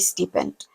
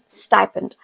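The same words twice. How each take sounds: First: It is said with a local, nonstandard pronunciation. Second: It is said with a standard, broadcaster-like pronunciation. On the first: This is how the speaker said it before. The speaker calls it wrong. "I used to say stipend" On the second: This is how the speaker learned it from broadcasters. The speaker calls it right. "but I learned stipend"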